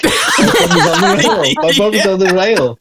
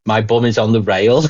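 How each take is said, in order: First: Laughing sing-song. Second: Said in the usual way. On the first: Retold or imitated. Repeating the song line, laughing.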